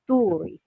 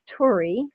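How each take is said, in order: First: The name is said with a Finnish pronunciation. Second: The name is said with an American English pronunciation. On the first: "the actual pronunciation is" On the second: "the Americanized version is"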